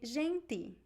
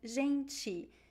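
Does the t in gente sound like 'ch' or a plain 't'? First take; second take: plain t; ch sound. First: The t is a plain, hard t sound. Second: The t is softened into a 'ch' sound. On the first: This is how people in one northeastern city say it. "In Recife, they would say gente" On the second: This is how most speakers usually say it. "We usually say ti, right?"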